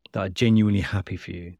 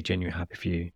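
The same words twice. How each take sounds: First: Said in the usual way. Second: Softer, sincere restatement of genuinely happy for you; soft emphatic repeat. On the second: Shown as a demonstration. Praising a mother's pride, repeated softly and sincerely. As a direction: drop the voice and mean genuinely. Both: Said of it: "like, genuinely".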